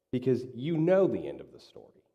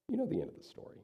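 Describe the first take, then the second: First: Said in the usual way. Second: "know" lifted much higher, said softly; emphatic repeat. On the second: Shown as a demonstration. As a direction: repeat it high and hushed, stressing "know".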